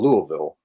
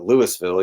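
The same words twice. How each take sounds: First: It is said the way locals say it. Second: It is said the way outsiders say it. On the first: The speaker calls it right. "you call it Louisville" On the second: The speaker calls it wrong. "you don't call it Louisville"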